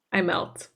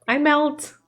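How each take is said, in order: First: Said in the usual way. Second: Higher, gushing emphasis on MELT; melting affection. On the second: Real, not acted. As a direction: swoon upward on "melt". Repeats it with heightened affection.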